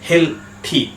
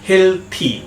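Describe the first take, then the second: The two takes are said the same way.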